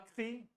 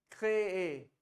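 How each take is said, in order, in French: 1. Le mot se termine par un son 'ee'. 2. Le mot se termine par un son 'ay'.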